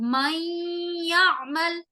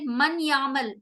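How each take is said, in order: First: The n merges into y with nasal hold. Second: The n is said separately before y. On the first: The speaker calls it right. "नून को मैं नाक में गुन्ना कर रही हूं।" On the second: The speaker calls it wrong. "हम ऐसे नहीं पढ़ सकते मन यामल, ये गलत होगा।"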